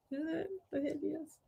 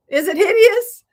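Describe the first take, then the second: First: Much softer, muttered second ask; quiet repeat. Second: Much higher, louder anxious question; fake-panic asking the viewers; playful alarm. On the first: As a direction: say it again under your breath. Repeats question to herself. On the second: Asks viewers about her bow. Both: Real, not acted.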